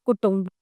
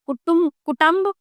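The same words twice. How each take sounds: First: कुटुंब said with falling, settled tone; correct form. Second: कुटुंब first read as कुटुम, rising; wrong spelling read. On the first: Teacher giving the correct form, falling. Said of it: "ये शुद्ध है". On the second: Teacher reading the misspelled form, rising. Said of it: "ये अशुद्ध है". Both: Shown as a demonstration.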